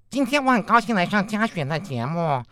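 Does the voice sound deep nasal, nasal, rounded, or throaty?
nasal. Nasal resonance is added, giving a nasal tone. "那如果我们再加一点鼻腔共鸣呢？"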